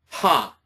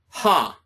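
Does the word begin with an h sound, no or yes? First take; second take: yes; yes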